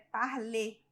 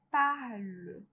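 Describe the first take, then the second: First: The final vowel is strong and clearly sounded. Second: The final vowel is weak and nearly silent. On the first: The speaker calls it wrong. "não é um E forte" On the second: The speaker calls it right. "É um E quase mudo"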